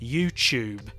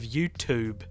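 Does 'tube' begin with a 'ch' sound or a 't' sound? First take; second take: ch sound; t sound. First: The word tube begins with a ch sound. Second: The word tube begins with a t sound. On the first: "I pronounce the word tube like it starts with a C H" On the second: "Instead of"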